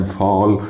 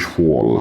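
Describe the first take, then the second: First: فال with "ah"; American open vowel. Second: فول with "aw"; British rounded vowel. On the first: Teacher recapping American فال, open "ah". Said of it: "فتحنا في الامريكان". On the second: Teacher recapping British فول, rounded "aw". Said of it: "ضمينا في البريتش". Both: Shown as a demonstration.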